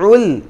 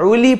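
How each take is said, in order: First: The l ends with no vowel. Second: An i vowel follows the l. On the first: The speaker calls it right. "লামের উপরে সাকিন আছে" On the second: The speaker calls it wrong. "এখানে উলি পড়ি আমরা অনেকে, অর্থাৎ ... লামের নিচে জের দিয়ে ফেলি"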